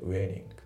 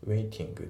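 First: The middle T is flapped like an L. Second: The middle T is a clear T sound. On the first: "フラッピングでL の発音になってますね" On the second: "waiting じゃなくて"

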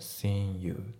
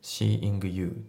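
First: The g at the end of seeing is dropped. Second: The g at the end of seeing is pronounced. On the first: "seeing のG がね、ほぼ抜けてますね" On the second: "seeing you じゃなくて"

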